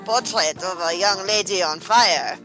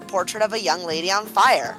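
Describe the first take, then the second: First: It is said in a French accent. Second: It is said in a plain accent.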